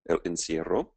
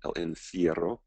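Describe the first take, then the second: First: It is said with an English accent. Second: It is said with a Spanish accent.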